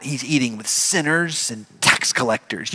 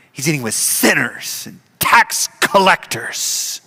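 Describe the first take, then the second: First: Spat out. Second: Judgmental, hitting every consonant of "sinners and tax collectors". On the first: Acted. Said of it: "they kinda spit out". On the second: Shown as a demonstration. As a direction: spit the consonants of "He's eating with sinners" sharply. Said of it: "you emphasize your consonants".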